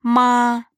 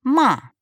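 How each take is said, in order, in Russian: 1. Тон высокий и ровный. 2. Тон резко падает с высокого уровня. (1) "Первый тон – «ма»" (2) "четвертый тон – «ма»"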